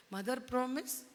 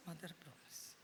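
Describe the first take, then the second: First: Rising on promise, asking; demanding promise. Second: mother promise said low and much softer, falling; soft oath. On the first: Delilah makes Samson swear, coaxing. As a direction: press for the promise with a lift on promise. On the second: Samson swears to Delilah, softly and low. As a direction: murmur the promise in a low fall. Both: Acted.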